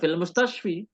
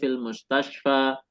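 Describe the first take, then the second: First: The last word ends with an 'i' vowel. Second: The last word ends with an 'a' vowel. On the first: The speaker calls it wrong. "bukan fil mustashfi" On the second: The speaker calls it right. "tetapi fil mustashfa"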